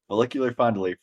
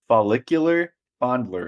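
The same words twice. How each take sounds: First: It is said as fast as possible. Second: It is said at a normal pace.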